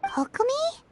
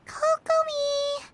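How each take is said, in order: First: Said in the usual way. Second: Calling out. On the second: Real, not acted. Calling to sleeping Kokomi.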